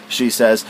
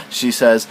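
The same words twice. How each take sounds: The two takes are said the same way.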